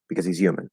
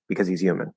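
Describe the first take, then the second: No difference in how they are said.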